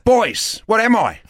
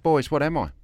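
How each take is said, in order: First: It is said a little louder. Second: It is said at normal volume.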